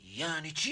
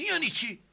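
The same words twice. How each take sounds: First: Said in the usual way. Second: یعنی چی thrown back much higher and louder; exasperated echo. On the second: Acted. Judge mocks the witness's question back at him, exasperated and high. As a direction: bounce the question back in disbelief.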